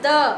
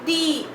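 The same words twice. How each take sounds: First: It ends in a short, weak 'uh' vowel. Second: It ends in a long 'ee' vowel. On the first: It comes before a consonant sound. "Before consonant sound we read it as the" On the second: It comes before a vowel sound. "before vowel sound the pronunciation becomes the"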